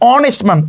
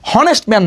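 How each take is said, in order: First: The word begins with a vowel sound. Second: The word begins with an h sound. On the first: The speaker calls it right. "উচ্চারণ কিন্তু অনেস্ট man ... ভাওয়েলের মতো কিন্তু উচ্চারণ হয়েছে" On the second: The speaker calls it wrong. "এখানে উচ্চারণ কিন্তু হনেস্ট man না"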